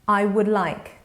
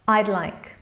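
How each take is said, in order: First: The words 'I would' are said in full. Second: The words 'I would' are contracted to 'I'd'.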